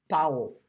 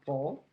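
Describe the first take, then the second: First: The name is said the way Dutch people say it. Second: The name is said in the speaker's usual English.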